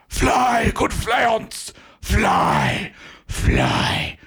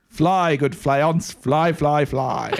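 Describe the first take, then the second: First: It is said like someone dying. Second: It is said in a normal voice.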